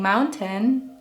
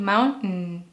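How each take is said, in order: First: The middle T is clearly released. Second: The middle T is a glottal stop. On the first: The speaker calls it wrong. "You are not saying mountain" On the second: The speaker calls it right. "the glottal T can be used in words like mountain"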